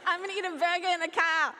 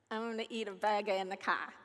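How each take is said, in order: First: Put-on higher, louder botched Australian accent; attempted Aussie accent, louder. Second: Lightly attempted Australian accent; attempted Aussie accent. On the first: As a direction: repeat it loudly in a bad Aussie accent. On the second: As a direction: have a tentative go at an Aussie accent. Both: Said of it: "I don't know how to do an Aussie accent".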